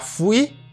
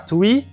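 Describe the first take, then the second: First: It begins with an f sound. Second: It begins with a t sound. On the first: "C'est pas F, c'est pas free" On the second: "C'est pas T, c'est pas three"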